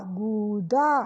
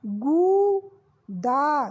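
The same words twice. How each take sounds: First: गूदा short and lower; quick repeat. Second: गूदा with a very slow long ऊ; slow drawn. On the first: (गूदा जल्दी दोहराना) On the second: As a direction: stretch गूदा out. (गूदा को खींचकर) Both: Shown as a demonstration. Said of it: "बड़े ऊ की मात्रा लगी".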